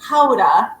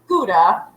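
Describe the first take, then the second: First: The word starts with a throaty, guttural sound. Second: The word starts with a plain, non-throaty sound. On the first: The speaker calls it right. "It's supposed to be um, Gouda, like guttural" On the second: The speaker calls it wrong. "it looks like Gouda, so everybody says Gouda"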